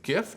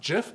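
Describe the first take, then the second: First: It begins with a hard G sound. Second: It begins with a soft J sound. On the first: The speaker calls it right. "I pronounce it GIF" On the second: The speaker calls it wrong. "not GIF"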